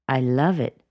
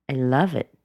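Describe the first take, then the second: The two takes are said the same way.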